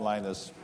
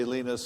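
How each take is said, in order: First: Linus said "LIE-nus"; Californian pronunciation. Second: Linus said "LEE-nus"; native pronunciation. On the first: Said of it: "so I'm Linus". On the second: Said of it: "nobody in California can say Linus". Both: Retold or imitated.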